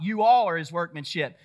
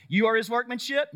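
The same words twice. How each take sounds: First: "all" punched, then falling firmly; stress on YOU ALL. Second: "you are" lifted high, ending in doubt; questioning YOU ARE. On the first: Preacher correcting the congregation, stress on "you all". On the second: Preacher challenging what people heard preached, questioning "you are". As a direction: query it as a mistaken reading, rising after "you are". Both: Shown as a demonstration. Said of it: "No, you're not".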